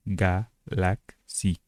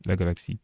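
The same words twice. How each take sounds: First: GALAXIE slowly split as ga-lak-si, Turkish style; syllable by syllable. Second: Said in the usual way. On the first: Shown as a demonstration. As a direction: sound out GALAXIE in three separated syllables. Mot turc découpé en syllabes. (GALAXIE détaché lentement, ga-lak-si, à la turque)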